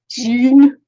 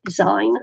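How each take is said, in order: First: "Zine" rhyming with seen, louder; long-ee pronunciation. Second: "zine" rhyming with sign; long-i pronunciation. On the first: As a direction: punch out "Zine" like the end of magazine. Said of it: "it would be zine and not zine". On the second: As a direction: say "zine" with an eye vowel. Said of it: "but I like saying zine". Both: Shown as a demonstration.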